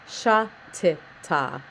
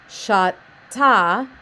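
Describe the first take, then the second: First: The repeated consonant is sounded twice, with a vowel between. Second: The repeated consonant is sounded only once. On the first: The speaker calls it right. "it is sha ti ta" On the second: The speaker calls it wrong. "instead of sha ta"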